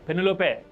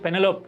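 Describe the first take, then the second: First: The name is said in an Italian style. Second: The name is said in an Indian style. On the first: This is how it is said in the film. "Italian slang అనుకుంటా" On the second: This is how people here usually say it. "మనమైతే పెనెలోప్ అని పలుకుతాం"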